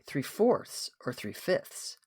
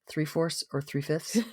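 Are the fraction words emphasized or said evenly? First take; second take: emphasized; evenly. First: The fraction words are said with strong emphasis. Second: The fraction words are said evenly, without emphasis. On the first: The listener is nudged toward the answer. The speaker calls it wrong. "maybe I shouldn't have said it quite that way" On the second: Neither choice is favored. The speaker calls it right. "How do I say it without any emphasis?"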